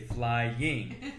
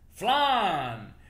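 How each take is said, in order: First: It is said in a standard American accent. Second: It is said in a Southern American accent. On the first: The speaker calls it right. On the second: The speaker calls it wrong.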